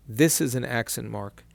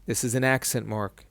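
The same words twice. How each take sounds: The two takes are said the same way.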